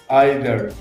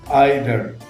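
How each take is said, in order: No difference in how they are said.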